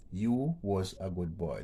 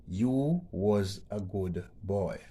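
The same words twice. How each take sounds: First: Said in the usual way. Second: Put-on slow, deliberate reading of "You was a good boy", louder; slow read-out of the sentence. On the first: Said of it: "That would be incorrect grammar". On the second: Shown as a demonstration. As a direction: read the example sentence slowly and clearly. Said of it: "Number four says".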